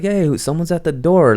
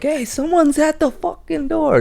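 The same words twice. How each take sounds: First: Mock calling out. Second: High, shrill yell up the stairs; mock yell. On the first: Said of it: "she's calling for her brother". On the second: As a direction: sister yelling at her brother, imitated. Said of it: "she's yelling at her brother like".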